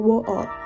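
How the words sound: It is said in a British accent. "彼らの中ではwater なわけですよ"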